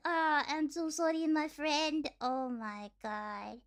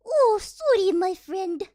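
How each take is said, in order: First: Lightly voiced Russian gamer's apology, unraised; understated take on a trolling Russian player; mock Russian gamer. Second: Loud, high mock-Russian apology; hammed-up Russian gamer, pitch jumping up on "sorry". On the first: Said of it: "they're like". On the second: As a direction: exclaim it like a trolling Russian player. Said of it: "they would steal your kill and be like".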